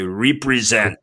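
The word has an African English pronunciation. "in their English, ... they say represent"

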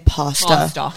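It is said in an American pronunciation.

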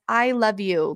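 It is said warmly, with heartfelt sincerity.

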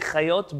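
The name is said in Israeli Hebrew pronunciation.

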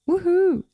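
It is said flat and monotonous.

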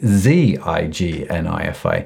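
The first letter is said as zee, American style.

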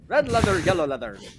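It is said in a Scottish accent.

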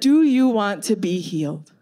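The question is asked in a gentle, sincere tone. The speaker calls it right. "I'm going to say it again"

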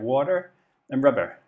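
It is said in a Devon accent.

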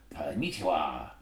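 It is said in an exaggerated imitating voice. "if I was doing an impression of someone from Japan"

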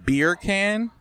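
It is said in an American accent.

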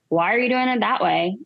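The tone sounds judgmental and critical. The speaker disapproves of how it is being done. The speaker calls it wrong. "Versus like"

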